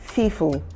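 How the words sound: The word starts with an F sound. The speaker calls it wrong. "some of them have challenges with the sounds of the letter P"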